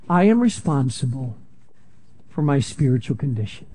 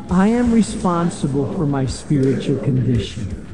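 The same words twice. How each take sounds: First: It is said at normal volume. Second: It is said louder.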